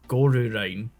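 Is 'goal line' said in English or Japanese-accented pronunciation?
Japanese-accented. It is said with Japanese-style vowels added. "it's like Goru line"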